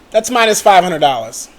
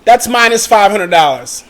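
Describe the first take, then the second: No difference in how they are said.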